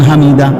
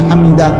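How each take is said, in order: Both takes have the same delivery.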